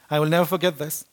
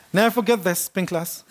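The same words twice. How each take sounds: First: Said in the usual way. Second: Laughing through the words; amused retelling with a laugh. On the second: Real, not acted. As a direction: chuckle as you repeat it. Repeats the line laughing.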